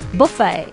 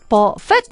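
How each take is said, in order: First: The word ends without a t sound. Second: The word ends with a t sound. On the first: The speaker calls it right. "설자대를 읽지 않고 불어 발음에 비슷하게" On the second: The speaker calls it wrong. "버펫 이렇게 읽어야 되는 거 아니야"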